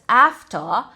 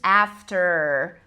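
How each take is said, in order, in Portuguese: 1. O R final é omitido. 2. O R final é fortemente pronunciado. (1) "a forma que os britânicos pronunciariam" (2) "esse R não é pronunciado como"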